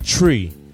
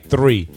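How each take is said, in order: First: The word starts with a plain t sound. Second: The word starts with a th sound. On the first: "I was so used to saying tree" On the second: "It took me a long time to say three"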